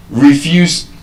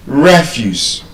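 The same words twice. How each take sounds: First: "Refuse" as rih-FUSE, second syllable stressed; verb stress. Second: "refuse" as REF-use, first syllable stressed; noun stress. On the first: Teacher contrasting same spelling, second-syllable stress on "Refuse". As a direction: say "Refuse" with a short ri- and strong -FUSE. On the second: Teacher contrasting same spelling, first-syllable stress on "refuse". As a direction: open "refuse" with a strong REF. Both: Shown as a demonstration. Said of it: "but then different pronunciations".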